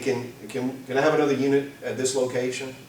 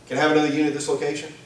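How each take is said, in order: First: The request sounds calm and unhurried. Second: The request sounds tense and urgent. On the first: Something may be off; backup is just a precaution. "the first one is, "Yeah, something's not right. I, just to be sure" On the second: Something is definitely wrong; help is needed now. "The other one is, "Something's definitely not right. I need somebody"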